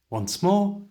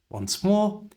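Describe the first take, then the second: Both takes have the same delivery.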